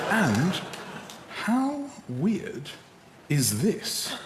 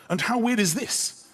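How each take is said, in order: First: Broken into pieces with pauses; word by word, as if typing it; halting, deliberate message dictation; dictating a text. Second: Higher, in one flowing phrase; lifted, continuous question; reading a text back. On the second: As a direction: read it straight through. Reads the finished text back in full. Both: Acted.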